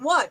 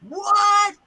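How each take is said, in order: First: The voice sounds puzzled and questioning. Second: The voice sounds angry and annoyed. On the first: The speaker does not understand what is happening. "meaning what? What's going on?" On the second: The speaker is upset about something. "I'm mad now"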